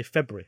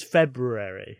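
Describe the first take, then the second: First: February squashed to "Feb-ree"; February with the middle swallowed; everyday pronunciation. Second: February with every syllable, "Feb-roo-air-ee"; February said in full, as it is spelt; full pronunciation. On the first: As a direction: say February casually in two syllables. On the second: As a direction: sound out both Rs in February. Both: Shown as a demonstration. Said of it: "most people just say February".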